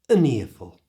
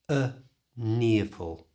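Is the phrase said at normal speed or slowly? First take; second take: normal speed; slowly. First: The phrase is said at normal conversational speed. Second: The phrase is said slowly and carefully. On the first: "And at normal speed" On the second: "So slowly it sounds like this"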